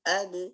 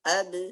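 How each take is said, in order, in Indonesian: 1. Huruf b berakhir dengan gema yang pendek dan ringan. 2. Huruf b berakhir dengan gema yang pendek dan ringan.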